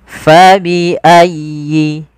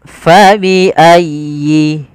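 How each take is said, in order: Both takes have the same delivery.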